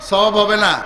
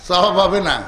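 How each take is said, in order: Both takes have the same delivery.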